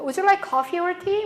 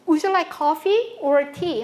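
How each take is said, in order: First: The tune asks for a yes or no answer. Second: The tune asks the listener to pick an option. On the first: The speaker offers a drink of some kind. "초이스라기보다는 그냥 yes, no 퀘스천에 가까운 억양이다" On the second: The speaker asks which of the two drinks is wanted. "Coffee 또는 tea please 이렇게 초이스를 묻는 말인데"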